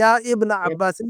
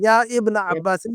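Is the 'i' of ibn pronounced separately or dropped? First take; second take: pronounced; pronounced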